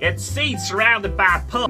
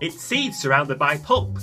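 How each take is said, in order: First: It is spoken in a country accent. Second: It is spoken in a New York accent.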